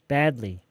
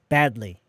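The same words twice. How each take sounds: The two takes are said the same way.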